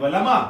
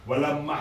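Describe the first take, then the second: First: The m sound is short and single. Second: The m sound is held long, doubled. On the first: The speaker calls it right. "लमा, लाम पे ज़बर बना दिए" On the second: The speaker calls it wrong. "Sorry वलमा, लमा लम्मा नहीं है"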